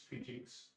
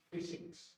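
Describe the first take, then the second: First: Maharashtrian "physics", with a j sound for the middle s; Maharashtrian accent. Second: South Indian "physics", with a soft hissed s in the middle; deep South Indian accent. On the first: Teacher shows regional mispronunciation of "physics", Maharashtrian accent. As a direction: say "physics" as "fijiks", Maharashtrian style. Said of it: "You go to Maharashtra". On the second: Teacher shows regional mispronunciation of "physics", deep South Indian accent. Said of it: "You go deep south". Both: Shown as a demonstration.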